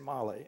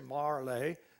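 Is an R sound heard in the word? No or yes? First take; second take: no; yes. First: The word is said with a deep A, no R. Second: The word is said with an R sound. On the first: "with a deep A" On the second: "with an R"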